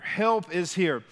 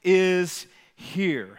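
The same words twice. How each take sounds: First: "Help Is Here" slow, each word set apart, stress on "Help"; slow title emphasis. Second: Said in the usual way. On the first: Shown as a demonstration. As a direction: lay the title down slowly, leaning on "Help". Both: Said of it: "the title of today's message is".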